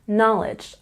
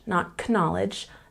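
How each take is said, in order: First: The K at the start is silent. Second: The K at the start is pronounced. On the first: The speaker calls it right. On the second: The speaker calls it wrong.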